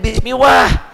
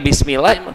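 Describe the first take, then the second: First: It is drawn out slowly. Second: It is said at a quick pace. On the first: The reciter is showing off for people behind him. "kenapa jadi Bismillah?" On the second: This is how the reciter usually reads. "Biasa lagi"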